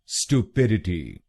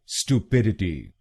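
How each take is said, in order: First: It starts with an American 'stoo' sound. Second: The same.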